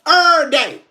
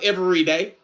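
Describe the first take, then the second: First: Every is shortened to a single syllable, er. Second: Every is said in full, with all syllables. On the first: This is how the speaker personally says it. "but I say er day" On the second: This is the standard form of the phrase. "I know it's every day"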